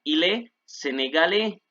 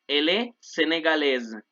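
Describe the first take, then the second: First: "sénégalais" ending in an open e, s silent; masculine sénégalais. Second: "sénégalaise" ends in a z sound, "say-nay-gah-LEZ"; feminine with z ending. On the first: Teacher modelling the masculine with silent ending. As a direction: let "sénégalais" end on an open e. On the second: Teacher modelling the feminine ending in z. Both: Shown as a demonstration. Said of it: "la A y la I suena E".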